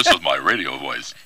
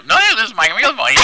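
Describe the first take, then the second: First: Low announcer voice; radio voice. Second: High, loud silly voice; joke high voice. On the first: Shown as a demonstration. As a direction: drop into the deep radio voice. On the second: Pretend. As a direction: squeak it out as a joke.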